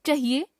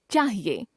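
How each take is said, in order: First: चाहिए with short "cha"; mispronounced first vowel. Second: Said in the usual way. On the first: Shown as a demonstration. Teacher showing a common error, चाहिए with short first vowel. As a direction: say चाहिए as "chuh-hiye". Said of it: "अशुद्ध". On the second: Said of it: "शुद्ध".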